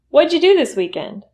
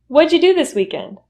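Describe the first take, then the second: The two takes are said the same way.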